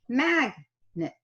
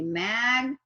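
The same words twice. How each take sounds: First: The first syllable is stressed; the second is reduced. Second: Both syllables are stressed with full vowels. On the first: "That was a little schwa" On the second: "I have equally stressed both syllables and I have pronounced all the short vowels"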